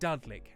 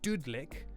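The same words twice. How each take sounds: First: The first vowel sounds like in crud. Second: The first vowel sounds like in pudding. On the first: "as in crud and crudding" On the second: "option one, Dudlik? Dud as in pudding"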